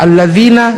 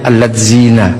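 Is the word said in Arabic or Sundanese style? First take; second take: Arabic; Sundanese. First: It is said with Arabic pronunciation. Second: It is said with a Sundanese accent. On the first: "Orang Sunda ketika baca" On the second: "sebagian besar keluarnya"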